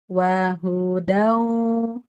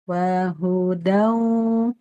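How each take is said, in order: The two takes are said the same way.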